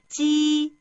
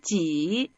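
First: The pitch stays high and level. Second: The pitch dips low and then rises.

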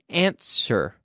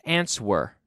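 First: The W sound is silent. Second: The W sound is pronounced. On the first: The speaker calls it right. "Y fíjate que aquí digamos answer" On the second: The speaker calls it wrong. "No es answer. We do not pronounce the W"

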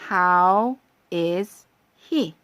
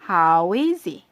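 First: The words are said separately, not linked. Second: The words run together in one linked flow.

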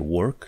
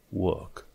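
First: The r sound is pronounced. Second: The r sound is silent. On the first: The speaker calls it wrong. "nu e work" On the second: The speaker calls it right. "e work"

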